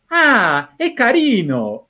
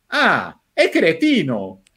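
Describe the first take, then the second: First: Higher, pleased "Ah, es carino", drawn out slowly; charmed approval. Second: Dismissive verdict. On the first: An editor reacting fondly to the driver's words, mildly imitated with pleasure. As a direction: coo "carino" as if the man is sweet. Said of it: "lo iba viendo lo que decía el prota y decía". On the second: The same editor turning on the driver, lightly imitated with scorn. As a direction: let "cretino" drop as a mild put-down. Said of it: "dice otra frase y dice". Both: Retold or imitated.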